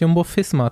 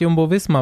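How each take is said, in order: First: Visma begins with a voiceless F sound. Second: Visma begins with a voiced V sound. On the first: The speaker calls it right. "aber es heißt Jumbo-Fisma tatsächlich" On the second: The speaker calls it wrong. "Wir dachten doch auch immer, es heißt"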